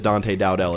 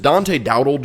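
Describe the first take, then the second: First: The surname ends in a full 'dell' sound. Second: The surname ends in a reduced 'dle' sound. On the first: The speaker calls it right. "as good as Dante Dowdell" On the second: The speaker calls it wrong. "Dante Dowdle just doesn't sound as good"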